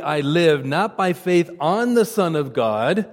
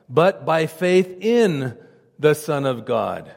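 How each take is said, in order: First: Said in the usual way. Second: Slow down and lean on "in" in "by faith in the Son of God"; slowed, weighted "in" contrasting with "on"; stress on in. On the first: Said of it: "having faith on something puts the emphasis on us". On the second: Shown as a demonstration. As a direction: draw out "but by faith in" slowly, landing on "in". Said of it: "having faith in something puts the emphasis on the subject".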